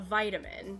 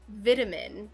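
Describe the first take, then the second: First: It is said with an American pronunciation. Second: It is said with a British pronunciation. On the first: "instead of a vitamin" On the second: "he said vitamin instead of a vitamin"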